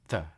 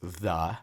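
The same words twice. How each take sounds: First: The vowel is short and reduced. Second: The vowel is full and clearly pronounced. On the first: The speaker calls it right. "but rather the" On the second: The speaker calls it wrong. "normally it's not pronounced the"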